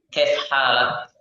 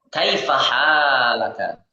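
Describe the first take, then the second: First: The final vowels are dropped and words shortened. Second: The final vowels are fully pronounced. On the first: This is casual conversational speech. "ketika kita sedang bermuhadatsah ... maka ya kita sukunkan huruf terakhir" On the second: This is the full formal reading.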